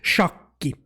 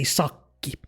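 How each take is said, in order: First: The word begins with an sh sound. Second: The word begins with a plain s sound. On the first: "it's shakki in our language" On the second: "old people will say sakki. They won't say the sh sound"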